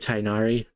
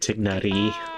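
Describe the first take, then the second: First: The name is said the usual, standard way. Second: The name starts like 'tick', Thai-style accent. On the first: This is how most people say it. "People say Tighnari" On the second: This is how the speaker personally says it. "I say it with a Thai or Cambodian accent"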